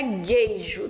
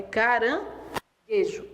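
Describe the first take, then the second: First: "gueijo" said with an "ei" sound, as the mistake to avoid; wrong pronunciation. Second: "caranguejo" with a plain "e" and no "i" sound; correct pronunciation. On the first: Teacher demonstrating the wrong way to students, wrong "gueijo" with "ei". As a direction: show the wrong "gueijo" with a clear "ei". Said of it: "Não é gueijo". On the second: Teacher giving students the correct form, "caranguejo" with a plain "e". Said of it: "Não tem I". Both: Shown as a demonstration.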